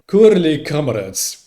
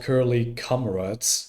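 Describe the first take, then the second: First: It is said in a put-on Russian accent. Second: It is said in a plain English accent.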